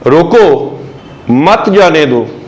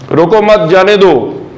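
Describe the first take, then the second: First: It is said with a pause after 'roko'. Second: It is said quickly, pausing after 'mat'.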